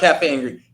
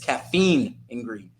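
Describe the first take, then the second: First: The first word sounds like cafe. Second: The first word sounds like caffeine. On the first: The speaker calls it wrong. "It's not cafe and green" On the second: The speaker calls it right. "It's caffeine and green because I always say it wrong"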